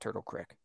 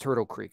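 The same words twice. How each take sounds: First: Creek has a short 'i' vowel, like sick. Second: Creek has a long 'ee' vowel, like seek. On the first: The speaker calls it wrong. "People call it a crick" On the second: The speaker calls it right. "I call it a creek"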